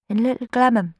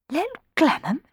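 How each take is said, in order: First: Said in the usual way. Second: Little Glenham asked much higher, rising in surprise; surprised exclamation. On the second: Acted. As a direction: echo Little Glenham in disbelief. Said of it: "exclaimed Rowan".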